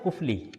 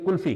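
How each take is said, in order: First: The f sound comes before the l sound. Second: The l sound comes before the f sound. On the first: This is the original, older form of the word. "ये लफ्ज असल में था कुफली" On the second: This is the form everyone uses now. "कुल्फी खाते कभी"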